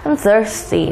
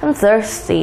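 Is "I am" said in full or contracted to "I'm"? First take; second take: contracted; contracted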